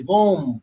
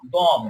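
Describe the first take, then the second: First: "বোম" with a long, rounded o; common mispronunciation. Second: "বম" with a short, open vowel and silent b; correct pronunciation. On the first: Teacher showing what many people say, mispronounced "বোম". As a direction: draw out the o in "বোম", as people wrongly say it. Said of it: "আমরা অনেকে বলি বোম বলে ফেলি". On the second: Teacher answering how it should be said, correct "বম". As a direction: end "বম" on m, no b sound. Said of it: "উচ্চারণ হবে বম". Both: Shown as a demonstration.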